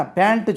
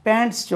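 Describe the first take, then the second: First: பேண்ட் as Tamil "pantu", no final s; பேண்ட் without its plural ending; wrong form. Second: பேண்ட்ஸ் high, with final "ts" sounded; பேண்ட்ஸ் ending in a clear s; correct form. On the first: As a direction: show the faulty பேண்ட் with a short added u. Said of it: "பேண்ட் சொல்லக்கூடாது". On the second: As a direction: model பேண்ட்ஸ் as plural "pants". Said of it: "பேண்ட்ஸ் சொல்றோம் இல்லையா". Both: Shown as a demonstration.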